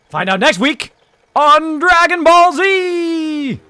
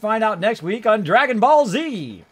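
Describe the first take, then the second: First: It is said in a put-on announcer voice. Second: It is said in an ordinary speaking voice.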